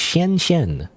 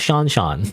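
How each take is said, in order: First: The name does not sound like English Sean. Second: The name sounds like the English name Sean. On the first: The speaker calls it right. "I think it's Xian Xian" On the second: The speaker calls it wrong. "it's not Sean Sean"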